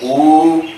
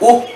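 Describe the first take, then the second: First: The vowel sound is held longer. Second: The vowel sound is held briefly. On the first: "this is long" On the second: "this is short"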